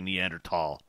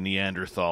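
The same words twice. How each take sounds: First: The middle is said with a plain 't' sound. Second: The middle is said with a 'th' sound. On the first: The speaker calls it wrong. "I can't stand it when people say Neanderthal" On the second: The speaker calls it right. "I still pronounce the H in Neanderthal"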